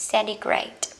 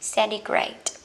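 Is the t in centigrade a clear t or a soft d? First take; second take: soft d; soft d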